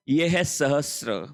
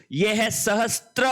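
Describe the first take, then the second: First: सहस्र said slowly as sa-ha-sra with no t, falling at the end; correct pronunciation. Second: सहस्त्र said with a clear t before the r, rising at the end; wrong spelling pronunciation. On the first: Teacher giving students the correct form, slow and clear सहस्र. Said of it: "ये शब्द है सहस्र". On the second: Teacher showing the class the wrong form, with a clear t in सहस्त्र. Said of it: "ये गलत है". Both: Shown as a demonstration.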